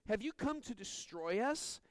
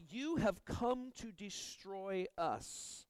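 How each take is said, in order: First: "Have you come to destroy us?" read as a real question, voice rising at the end on "us"; asked as a question. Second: "You have come to destroy us." said slowly as a statement, falling at the end on "us"; flat statement. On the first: Preacher quoting the demon's words as a question, rising tune. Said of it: "They were statements". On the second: Preacher showing the demon's words as a statement, slow and falling. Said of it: "There was no question". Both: Shown as a demonstration.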